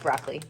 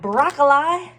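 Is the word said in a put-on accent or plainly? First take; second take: plainly; accent. First: The word is said in a plain normal accent. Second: The word is said in a put-on foreign accent.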